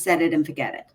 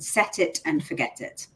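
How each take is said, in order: First: It is spoken in an American accent. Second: It is spoken in a British accent. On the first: "In American" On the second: "But I say that in a British accent"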